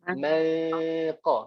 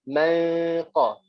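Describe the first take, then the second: Both takes have the same delivery.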